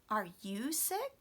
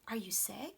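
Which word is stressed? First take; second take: you; sick. First: The stress falls on the pronoun. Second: The stress falls on the last word. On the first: The same question is returned to the asker. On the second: The question is asked for the first time.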